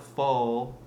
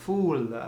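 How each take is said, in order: First: Said in the usual way. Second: FOOL with a French "oo" vowel, pitched higher; French-accented full, sounding like FOOL. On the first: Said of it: "It's not full". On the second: Shown as a demonstration. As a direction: say full as FOOL, louder and rounded. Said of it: "you're saying fool".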